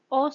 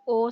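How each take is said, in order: First: "ओ" as a short open o like in clock; short o sound. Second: "ओ" as a long o like in rope, the wrong one here; long o sound. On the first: Teacher contrasts the short o with the long one. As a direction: clip "ओ" short, the clock vowel. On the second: Teacher shows the long o to avoid for clock. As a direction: hold "ओ" long, the rope vowel, as the contrast. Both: Shown as a demonstration. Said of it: "ना कि ओ sound".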